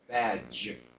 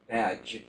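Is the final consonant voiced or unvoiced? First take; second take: voiced; voiced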